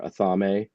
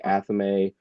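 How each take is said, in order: First: Athame as "uh-THAH-may", slowly; regional variant pronunciation. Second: Athame as "ATH-uh-may", slowly; modern pronunciation. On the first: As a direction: stress a long THAH in Athame, ending in "may". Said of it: "Depending on where you live". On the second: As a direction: stress the first syllable of Athame, ending in "may". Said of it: "most of us don't say that now". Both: Shown as a demonstration.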